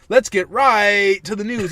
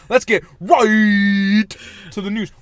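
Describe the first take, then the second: First: The word right has a plain vowel. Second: The word right sounds close to riot. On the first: "Instead of saying" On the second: "he does this weird oi to the fucking right"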